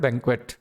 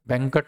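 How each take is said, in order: First: The middle has a 'kw' sound. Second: The middle has a plain 'k' sound. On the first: The speaker calls it right. "French word है बैंक्वेट" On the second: The speaker calls it wrong. "बैंकट नहीं होता है जो हम normally बोलते हैं"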